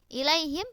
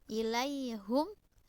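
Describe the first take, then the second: First: The last syllable has an i vowel. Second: The last syllable has a u vowel. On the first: This is the common reading. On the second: This is one reader's variant reading.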